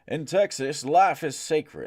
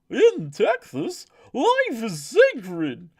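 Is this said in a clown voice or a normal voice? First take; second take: normal; clown. First: It is read in a normal speaking voice. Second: It is read in a silly clown voice.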